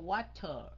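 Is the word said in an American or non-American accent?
non-American. It is said in a non-American accent. "Nó không đọc là water"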